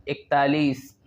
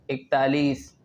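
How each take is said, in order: Both takes have the same delivery.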